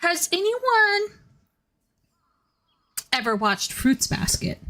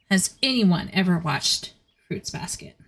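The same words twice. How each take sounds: First: High, slow sing-song voice; playful high-pitched ask to chat; sing-song question. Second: Said in the usual way. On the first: Pretend. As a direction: float the question up high and drawn out. Asks chat, then repeats it.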